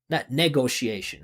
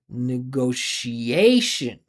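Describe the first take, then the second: First: The main stress falls on the first syllables. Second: The main stress falls on the syllable before -tion. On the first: The speaker calls it wrong. "she is really stressing the first syllables" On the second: The speaker calls it right. "the syllable before is the primary stress"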